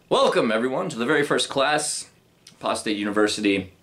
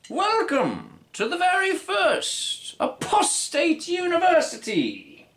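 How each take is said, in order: First: It is said in the speaker's natural voice. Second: It is said in a put-on character voice.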